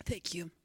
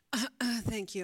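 First: Hoarse whispered thanks; breathy whisper after a coughing fit. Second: Coughing out words while choking; strained, choking on a drink. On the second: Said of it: "I'm choking". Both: Real, not acted.

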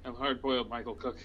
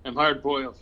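First: A hint of tough guy, softer; lightly voiced noir detective. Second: Louder hard-boiled tough guy; noir detective. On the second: Pretend. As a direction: punch it like a gruff detective. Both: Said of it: "Tough guy".

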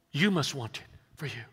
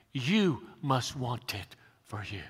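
First: Said in the usual way. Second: Slow, soft whisper pressing the point home. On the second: Shown as a demonstration. Pastor whispers the point to his congregation, hushed. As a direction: whisper it to them, slowly and intimately. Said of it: "It's not enough to believe".

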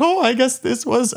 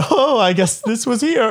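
First: High, mock German-accented teacher; teacher's German accent. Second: High, mock German-accented teacher; a half-hidden German accent, done again; teacher in German accent, thrown off guard; teacher's German accent. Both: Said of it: "I shouldn't do the accent".

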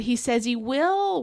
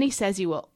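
First: WILL drawn out long and higher; emphatic, stretched-out WILL; stress on WILL. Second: Said in the usual way. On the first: Real, not acted. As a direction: lean hard and slowly on "will". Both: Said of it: "put emphasis on that word will".

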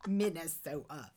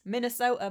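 First: Laughing parody of how "Minnesota" was said; "Minnesota" with a stretched Minnesota o; mock Minnesota accent. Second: "Minnesota" the plain, non-Midwest way; "Minnesota" said without the Minnesota sound; Minnesota the flat way. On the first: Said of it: "You do not say it that way". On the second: Shown as a demonstration. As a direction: say "Minnesota" loud, falling, with a flat open o. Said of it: "how do you say it".

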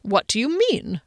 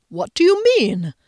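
First: Mildly puzzled, a bit higher; puzzled question. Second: High, loud, taken-aback question; jolted out of a daydream; startled question. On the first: Man still not following his friend, puzzled question. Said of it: "Rickenbacker said again". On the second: Man interrupted in his reverie, startled question. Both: A narrator's reading.

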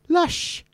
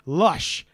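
First: Put-on lush sung up high, Welsh girl style; Welsh girl's lush. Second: Said in the usual way. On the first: Shown as a demonstration. Showing how a Welsh girl says lush, high Welsh lilt. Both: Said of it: "Or as a Welsh girl would say".

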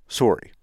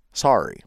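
First: "Sorry" with a round O; Canadian pronunciation. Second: "Sorry" with an open ah; American pronunciation. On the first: American trying the Canadian way, "Sorry" with an O. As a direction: say "Sorry" as "sore-ee". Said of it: "You gotta pronounce the O". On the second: American comparing the two ways, "Sorry" with ah. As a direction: say "Sorry" as "sah-ree". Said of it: "How do you say that word?". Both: Shown as a demonstration.

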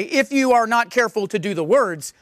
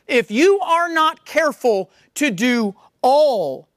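First: Said in the usual way. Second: Slow, with the word all leaned on at the end; stress on all. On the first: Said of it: "It doesn't say". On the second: Shown as a demonstration. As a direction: hit all, drawn out and firm. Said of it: "It says".

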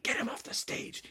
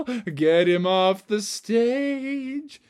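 First: Soft, hissed whisper; urgent stage whisper. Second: Sung, high, loud, slow held notes; belted singing. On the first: Director orders Froggy off mid-show, urgent whisper. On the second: Sung, Marion demands the frog's removal, belted song. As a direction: sing the order out to a big finish. Marion sings her complaint. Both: Acted.

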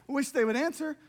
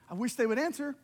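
Both takes have the same delivery.

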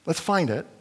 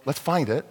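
No difference in how they are said.

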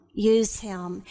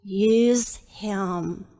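First: Said in the usual way. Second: Lower, slow, "Use" stressed; emphatic answer. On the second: Shown as a demonstration. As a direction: land hard on "Use". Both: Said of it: "for God to what?".

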